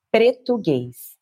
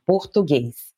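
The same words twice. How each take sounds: First: "Portuguese" changed to pre-tu-GEZ; blended Pretuguese pronunciation. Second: "Portuguese" said the Brazilian way, por-tu-GEZ; Brazilian Portuguese pronunciation. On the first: Guide quotes a writer's coinage, "Portuguese" turned into pre-tu-GEZ. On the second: Guide shows the word in her own language, "Portuguese" as por-tu-GEZ. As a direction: say "Portuguese" as português, stress on the last syllable. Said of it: "in our language". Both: Shown as a demonstration.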